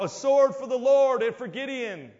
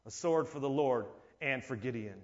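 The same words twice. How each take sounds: First: High, louder war cry; rallying shout of the army; battle cry. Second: Quiet solemn cry. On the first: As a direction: call it out across the camp. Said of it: "this cry goes out". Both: Acted.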